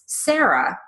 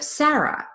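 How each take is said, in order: First: The first vowel has a Midwestern or Southern quality. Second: The first vowel has a standard Northeastern quality. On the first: The speaker comes from the Midwest or South. "if you live in the Midwest or in the South rather than the Northeast, you might say that name as Sarah" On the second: The speaker comes from the Northeast. "instead of Sarah"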